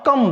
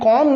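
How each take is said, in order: First: The vowel is a short 'uh' sound. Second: The vowel is an open 'aw' sound. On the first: The speaker calls it right. "कम बोलेंगे" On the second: The speaker calls it wrong. "कॉम नहीं बोलेंगे"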